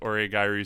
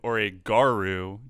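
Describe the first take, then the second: First: The 'ee' vowel before 'ru' is pronounced. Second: The 'ee' vowel before 'ru' is left out. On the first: The speaker calls it right. "there's definitely an I in there" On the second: The speaker calls it wrong. "just dropped the I entirely"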